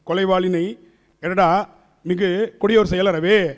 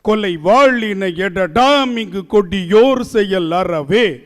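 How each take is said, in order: First: It is read flatly, without the metrical rhythm. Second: It is recited with a strong, lilting metrical rhythm. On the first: The speaker calls it wrong. "இப்படி படிச்சோம்னா பாரதிதாசன் திரும்பி பிறந்து வந்து உதப்பார்" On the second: The speaker calls it right. "இதான் சந்தம்"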